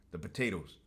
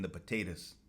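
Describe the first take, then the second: First: Said in the usual way. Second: "potatoes" with a reduced last syllable, like puh-TAY-tus; Irish-sounding slip. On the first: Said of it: "I don't know why I said potatoes". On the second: Real, not acted. Host slipping into an Irish-style word, "potatoes" said as puh-TAY-tus. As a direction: say "potatoes" ending in a short "tus". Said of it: "I don't know why I said potatoes. I'm Mexican, not Irish".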